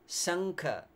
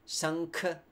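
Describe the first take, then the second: The two takes are said the same way.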